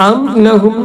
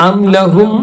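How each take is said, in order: The two takes are said the same way.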